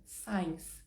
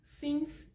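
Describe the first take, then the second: First: Signs with a long ai, like "sines"; the error, signs said with the alphabet I; wrong pronunciation. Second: Since with a short i, lifted high; the right way, Since like "sins"; correct pronunciation. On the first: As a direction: drop into the learner's mistake on signs. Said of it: "tá errado". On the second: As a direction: Since with a clipped English short i. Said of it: "uma coisa é o erro de pronúncia". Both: Shown as a demonstration.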